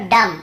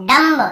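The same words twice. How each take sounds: First: "डम" closing on M, no B; silent B. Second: "डम्ब" with a sounded final B; B pronounced. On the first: Teacher corrects the reading for students, "डम" with B silent. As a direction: end "डम" with lips shut on M. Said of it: "यहाँ पर भी बी को नहीं पढ़ना है". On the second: Teacher mimics reading without the rule, "डम्ब" with B voiced. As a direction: end "डम्ब" as dam-buh. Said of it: "ऐसे पढ़ते हैं ना". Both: Shown as a demonstration.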